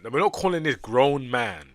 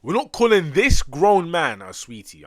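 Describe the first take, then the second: First: Louder, insisting on not; exasperated protest. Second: Much higher and louder, slow, stretching calling; incredulous yell. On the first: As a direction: push back, already annoyed. Exasperated protest at game character. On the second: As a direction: yell it out in disbelief, drawn out. Escalating protest at game character. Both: Real, not acted.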